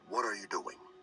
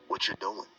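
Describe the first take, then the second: First: Every word is said fully and separately. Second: It is said fast with words reduced and linked.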